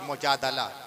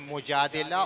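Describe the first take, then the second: First: The vowel after the d is 'a'. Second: The vowel after the d is 'i'. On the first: "दाल पे ज़बर के साथ भी" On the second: "दाल के ज़ेर के साथ भी"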